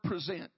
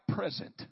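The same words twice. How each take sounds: First: The stress is on the second syllable. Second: The stress is on the first syllable. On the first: To offer something up. "First is the word present" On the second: A gift. "If you say it differently, it sounds like present. It's a gift"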